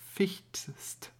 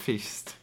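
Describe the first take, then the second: First: The t before the final st is clearly pronounced. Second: The t before the final st is dropped. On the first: The speaker calls it right. "fichtst ist korrekt" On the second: The speaker calls it wrong. "nicht fichtst"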